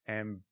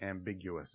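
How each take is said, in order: First: The word is pronounced in an odd, distorted way. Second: The word is pronounced in the standard way.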